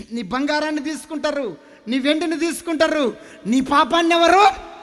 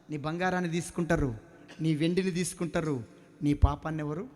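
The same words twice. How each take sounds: First: Building louder. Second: Said in the usual way. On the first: Real, not acted. Preacher presses the congregation about their sin: rising loud question. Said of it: "repeated as a louder build". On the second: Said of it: "repeated louder right after".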